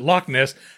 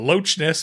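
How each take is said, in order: First: Loch ends in a k sound. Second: Loch ends in a ch sound. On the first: The speaker calls it right. "It wasn't Loch Ness" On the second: The speaker calls it wrong. "they pronounced the CH"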